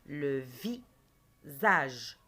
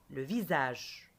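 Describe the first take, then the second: First: "Le visage" very slow, long gap between vi and sage; "Le visage" split slowly for pupils to hear; syllable by syllable. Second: Said in the usual way. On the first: Shown as a demonstration. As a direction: break "Le visage" after vi. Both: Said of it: "Je dis le mot à haute voix".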